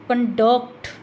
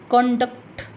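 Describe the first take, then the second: First: The stress is on the second syllable. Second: The stress is on the first syllable. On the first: It is used as a verb. "Duct को लंबा खींचेंगे तो stress duct पर आएगा" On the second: It is used as a noun. "कन को लंबा खींचेंगे, डक्ट को जल्दी से बोल देंगे"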